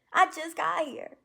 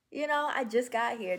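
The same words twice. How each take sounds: First: Proud, bursting with joy; excited. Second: Said in the usual way. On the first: Real, not acted. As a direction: burst out much higher and louder. Celebrating her fresh start.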